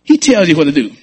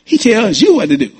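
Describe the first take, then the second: First: HE leaned on, falling finish; stress on HE. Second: You pressed a little higher, falling close; stress on YOU. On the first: Pastor sets up the line for the church, stress on he. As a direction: hit the word he, as if he gives the orders. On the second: Pastor correcting the church's wording, stress on you. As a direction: land on the word you, making it personal. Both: Shown as a demonstration.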